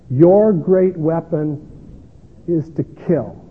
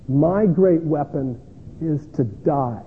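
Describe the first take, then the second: First: YOUR drawn out slowly and louder; slow, measured stress on "Your great weapon"; slow weighty quote. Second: GREAT stressed in a slow, measured line; slow weighty quote. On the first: Pastor facing the gunman, stressing YOUR slowly and louder. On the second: Pastor answering the gunman, slow with stress on GREAT. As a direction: lean on "great" in "My great weapon", very slow. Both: Retold or imitated.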